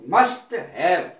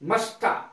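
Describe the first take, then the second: First: Said as two full separate words. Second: Said reduced and run together as one word.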